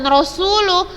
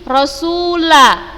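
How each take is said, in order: First: The word ends with a u vowel. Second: The word ends with an a vowel. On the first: The speaker calls it wrong. "bukan Rasulu" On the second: The speaker calls it right. "Ingat di sini Rasula ya"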